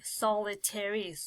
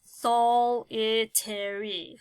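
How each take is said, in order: First: Said in the usual way. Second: Solitary said slowly, each syllable apart; slow sounding out. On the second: Shown as a demonstration. Teacher sounding out solitary while marking syllables. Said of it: "I am going to then grab".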